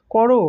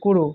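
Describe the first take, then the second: First: করো said as "kɔro"; open vowel in করো. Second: করো said as "koro"; closed vowel in করো. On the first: Teacher showing the unmarked word, করো with open ɔ. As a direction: say করো with an open "aw" in the first syllable. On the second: Teacher showing the apostrophe's effect, করো as "koro". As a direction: say করো with a rounded closed "o" first. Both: Shown as a demonstration. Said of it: "তখন তার উচ্চারণ হবে".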